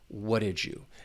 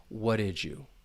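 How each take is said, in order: First: 'Did you' blends into a j sound. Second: The same.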